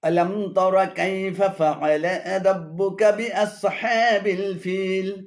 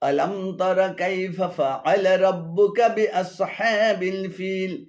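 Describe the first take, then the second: The two takes are said the same way.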